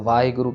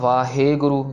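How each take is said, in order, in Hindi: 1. h के बाद सादा e स्वर आता है। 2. h के बाद लंबा खिंचा हुआ e स्वर आता है। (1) "वो सीधा ए कह देते हैं" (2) "जिसमें हम हे को बहुत लंबा खींच देते हैं"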